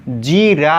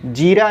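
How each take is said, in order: First: जीरा slowly with a stretched "jee"; long ī. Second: जीरा with a quick short first i. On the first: Teacher correcting it for students, long-ī जीरा. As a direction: draw out the जी in जीरा. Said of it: "जीरा होता है". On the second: Teacher showing students the misspelling, short-i जीरा. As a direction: keep the जी of जीरा brief. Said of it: "जीरा नहीं होता". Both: Shown as a demonstration.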